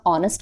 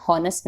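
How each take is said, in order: First: 'ऑनेस्ट' with no H, vowel sound first; silent H. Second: 'हॉनेस्ट' wrongly begun with a breathed H; sounded H. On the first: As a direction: start 'ऑनेस्ट' on 'aw', leaving H unspoken. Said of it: "इसको pronounce हम ऑनेस्ट करते हैं". ('ऑनेस्ट' बिना 'ह' की आवाज़ के) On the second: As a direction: pronounce the H at the front of 'हॉनेस्ट'. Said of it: "हॉनेस्ट नहीं करते हैं". ('हॉनेस्ट' में 'ह' का उच्चारण करते हुए) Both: Shown as a demonstration.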